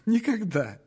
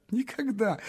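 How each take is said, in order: First: A little laugh through the word. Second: Said in the usual way. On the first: Acted. Dreamer laughing at his own loneliness. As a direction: laugh it off shyly.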